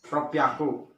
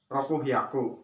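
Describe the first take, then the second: First: The number is contracted with a doubled consonant. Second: The number is said as two full parts. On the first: The speaker calls it right. "itu ropiaku" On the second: The speaker calls it wrong. "bukan ropuhiaku"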